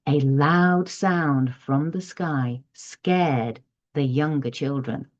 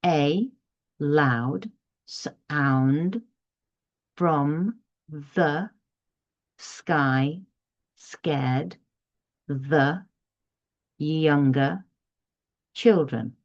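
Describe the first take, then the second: First: Slow reading with rising and falling tune; expressive storybook reading. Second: Slow word-by-word reading, one word at a time; flat robotic reading. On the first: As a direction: read it with feeling and inflection. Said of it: "this time with the expression, the intonation, and the inflection". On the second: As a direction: read it like a robot, each word apart. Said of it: "flat, emotionless, you know, like a robot". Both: Shown as a demonstration.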